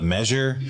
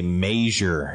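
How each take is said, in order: First: The first vowel is a short 'eh' sound. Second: The first vowel is a long 'ay' sound. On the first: "instead of measure" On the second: "my dad always used to say measure"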